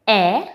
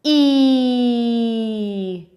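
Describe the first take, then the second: First: E as short "eh", as in exit; isolated short vowel "eh" for E; short E sound. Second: E as a long, held "eee"; sustained long vowel "ee" for E; long E sound. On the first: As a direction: say E briefly as "eh", not "ee". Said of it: "It's short sound". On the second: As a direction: draw E out as "ee", as in ear. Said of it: "it's a long sound". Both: Shown as a demonstration.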